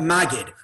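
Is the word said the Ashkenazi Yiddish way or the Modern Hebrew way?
Ashkenazi. It is said in an Ashkenazi Yiddish way. It names a communal preacher position.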